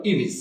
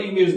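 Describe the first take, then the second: First: ইমেজ ending in a short i, like imij; correct image. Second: ইমেজ ending in -ej, like imej; common wrong image. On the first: Teacher to students, giving the correct ইমেজ with -ij. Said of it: "সঠিক উচ্চারণ বলবো". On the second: Teacher to students, showing the wrong ইমেজ with -ej. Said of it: "এটা ইমেজ উচ্চারণ আমরা বলবো না". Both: Shown as a demonstration.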